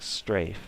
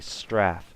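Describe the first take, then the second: First: It is said the American way. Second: It is said the European way. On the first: "I was saying strafe, and that's just how we say it" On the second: "Europeans say Straff"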